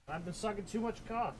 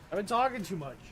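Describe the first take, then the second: First: Hushed, raspy joke voice; raspy whisper. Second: Soft, raspy sore-throat voice; raspy whisper. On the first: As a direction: whisper it hoarse and much softer. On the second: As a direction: rasp it out quietly like a sore throat. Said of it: "'Cause I've been talking too much". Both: Pretend.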